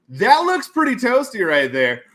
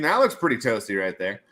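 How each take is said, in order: First: High, loud, slow goofy voice; big drawn-out approval; hammed-up repeat. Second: Said in the usual way. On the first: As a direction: stretch it out with silly relish.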